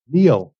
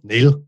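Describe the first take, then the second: First: Neil stretched into two syllables, said slowly. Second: Neil said as one short syllable with a flat vowel; one-syllable Northern Irish Neil. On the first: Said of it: "there's definitely two syllables in there". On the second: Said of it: "very flat vowel, one syllable". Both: Shown as a demonstration.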